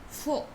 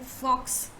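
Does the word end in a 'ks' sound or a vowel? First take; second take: vowel; ks sound. First: The word ends with a plain vowel. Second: The word ends with a 'ks' sound. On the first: The speaker calls it right. "you say faux" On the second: The speaker calls it wrong. "Instead of saying fox"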